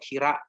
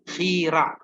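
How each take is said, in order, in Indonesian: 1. Kata ini diawali dengan bunyi h yang lembut. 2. Kata ini diawali dengan bunyi kh yang kasar. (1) "Kenapa tidak pakai huruf H?" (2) "Jadi dibacanya khira"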